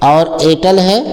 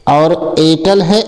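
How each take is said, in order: Both takes have the same delivery.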